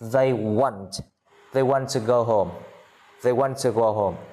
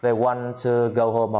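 First: The t in want is clearly pronounced. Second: The t in want is dropped and glided over.

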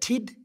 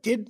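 First: The syllable starts with a crisp T sound. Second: The syllable starts with a softer D sound. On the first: The speaker calls it wrong. "so instead of tid" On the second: The speaker calls it right. "but did"

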